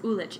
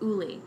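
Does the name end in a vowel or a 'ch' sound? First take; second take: ch sound; vowel. First: The name ends with a 'ch' sound. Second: The name ends with a vowel sound. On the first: This is how the spelling looks. The speaker calls it wrong. "It looks like it's pronounced Ulich" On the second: This is the actual pronunciation. The speaker calls it right. "It's pronounced Uli"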